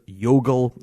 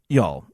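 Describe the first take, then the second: First: The name is said with two syllables. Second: The name is said with one syllable. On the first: The speaker calls it wrong. "I did pronounce that band as Yogle, and that was completely wrong" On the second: The speaker calls it right. "I will now be pronouncing their name as [name]"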